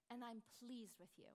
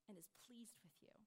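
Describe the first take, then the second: First: Said in the usual way. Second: Fading into a whisper; soft unvoiced trailing question. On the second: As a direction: breathe the question out, almost no voice. Doubting believer's quiet question.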